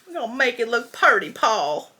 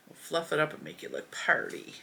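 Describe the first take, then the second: First: Hammed-up Southern twang on "purty", louder and higher; horrible accent. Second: Said in the usual way. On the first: Yarn host teasing Paul while fluffing yarn, mock country accent. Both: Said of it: "Pardon my horrible accent".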